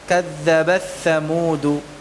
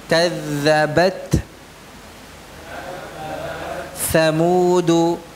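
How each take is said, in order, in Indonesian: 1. Bunyi t menyatu dengan bunyi setelahnya. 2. Bunyi t diucapkan dengan jelas tersendiri. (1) "Ini kalau diidghamkan" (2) "jangan diidghamkan"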